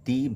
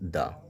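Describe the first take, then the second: First: The vowel is a long 'ee' sound. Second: The vowel is a short 'uh' sound. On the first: The next word begins with a vowel. "Noun, word, adjective যদি vowel দ্বারা শুরু হয় তখন উচ্চারণটা দি হয়" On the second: The next word begins with a consonant. "Consonant দিয়ে শুরু হয় ... তখন উচ্চারিত হয়ে যায় দা"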